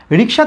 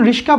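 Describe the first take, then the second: First: Said in the usual way. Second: "রিস্কা" with sh moved before k; swapped consonants. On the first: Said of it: "থেকে যখন রিস্কা বলছি". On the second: Shown as a demonstration. Teacher explains the change from rickshaw, swapped sounds in "রিস্কা". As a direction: say "রিস্কা", the middle sounds flipped. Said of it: "রিকশা থেকে যখন রিস্কা বলছি".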